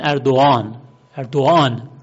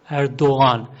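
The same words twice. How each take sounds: First: اردوغان said as ardo-an, the غ dropped; silent soft g. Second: اردوغان with the غ barely sounded, almost silent; soft gh Erdoğan. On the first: Teacher showing how Turks say اردوغان. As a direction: drop the غ so اردوغان sounds like ardo-an. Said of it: "آن میشنوند، غان نمیشنوند". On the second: Teacher demonstrating the soft g in اردوغان. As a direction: glide over the غ in اردوغان. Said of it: "انگار که تلفظ هم نمیشه". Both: Shown as a demonstration.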